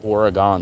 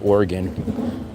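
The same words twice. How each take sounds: First: The word is pronounced following its spelling. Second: The word is pronounced like the word organ. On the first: "the way that it's spelled" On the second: "I say Oregon, just like Oregon meat"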